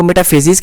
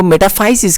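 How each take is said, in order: First: मेटाफेसिस with फे said like "fay"; FAY pronunciation. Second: मेटाफाइसिस with फाइ said like "fie"; FAI pronunciation. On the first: Teacher showing students one accepted way, मेटाफेसिस said with "FAY-sis". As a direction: say मेटाफेसिस with a long "ay" in the third syllable. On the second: Teacher showing students the other accepted way, मेटाफाइसिस said with "FIE-sis". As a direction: say मेटाफाइसिस with an "eye" vowel in the third syllable. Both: Shown as a demonstration. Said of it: "दो तरीके से इसकी pronunciation".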